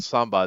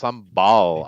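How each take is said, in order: First: The word ends in a vowel, with no L. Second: The word ends with a clear L sound. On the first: The speaker calls it wrong. "so it's not" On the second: The speaker calls it right. "it's like an L there"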